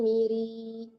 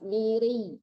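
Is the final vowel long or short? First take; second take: long; short. First: The vowel after the r is drawn out long. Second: The r is pressed and the vowel cut short. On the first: The speaker calls it wrong. "jangan miri" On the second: The speaker calls it right. "Ditekan lepas"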